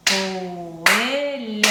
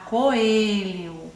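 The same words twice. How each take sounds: First: "coelho" drawn out very slowly in separate syllables. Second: Said in the usual way. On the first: Shown as a demonstration. Teacher showing pupils how to split "coelho", syllable by syllable. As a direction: stretch each syllable of "coelho". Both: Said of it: "separe a sílaba das palavras".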